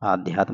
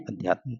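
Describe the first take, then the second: First: The first vowel is long. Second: The first vowel is short. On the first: The speaker calls it wrong. "आध्यात्म नहीं" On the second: The speaker calls it right. "छोटा बनता है अध्यात्म"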